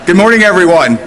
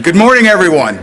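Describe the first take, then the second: First: It is said in a flat, quiet way. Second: It is said loudly with lots of energy.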